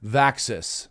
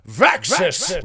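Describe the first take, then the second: First: The word is said plainly, at normal energy. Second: The word is said dramatically, with extra energy. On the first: "I don't just say Vaxis" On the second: "I have to say it like this"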